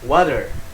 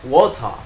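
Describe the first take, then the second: First: It is said in an American accent. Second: It is said in a British accent. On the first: "Itu Amerika" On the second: "Sedangkan Inggris"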